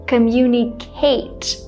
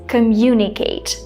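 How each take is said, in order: First: The stress is not on the second syllable. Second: The stress is on the second syllable. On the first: The speaker calls it wrong. "she put the stress on communicate with someone" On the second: The speaker calls it right. "The stress is on the second syllable"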